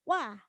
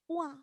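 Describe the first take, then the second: First: It ends cleanly on an open a sound. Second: It ends with an added u sound. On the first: The speaker calls it right. "Jadi wa itu benar-benar wah" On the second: The speaker calls it wrong. "jangan sampai wah... rawan untuk ada ... ketambahan u-nya"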